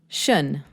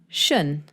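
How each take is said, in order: First: The ending is said as one syllable. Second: The same.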